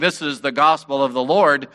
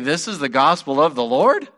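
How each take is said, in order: First: The voice falls at the end. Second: The voice rises at the end. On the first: It is a confident declaration. "that statement" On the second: It doubts that this is really good news. "put a question mark after that statement"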